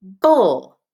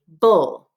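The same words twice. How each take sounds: First: Bull said louder, exaggerated; syllable bull modelled. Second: Bull said firmly; bull after spelling. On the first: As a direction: hit bull clearly. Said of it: "add a final syllable". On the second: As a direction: confirm bull. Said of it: "B L E". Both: Shown as a demonstration.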